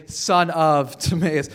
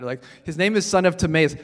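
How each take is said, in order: First: Drawn out slowly, leaning on "son"; slow it down so "son of Timaeus" sinks in; slow emphatic repeat. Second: Said in the usual way. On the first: Shown as a demonstration.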